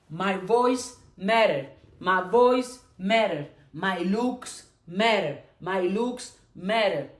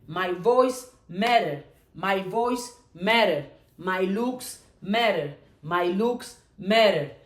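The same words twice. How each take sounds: The two takes are said the same way.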